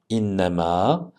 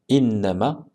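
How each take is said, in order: First: The final vowel is held long. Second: The final vowel is cut short. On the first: The word is read on its own. "Si on le lit tout seul, ce mot, on lit innama" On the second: The word links to the next word. "On ne fera pas la prolongation"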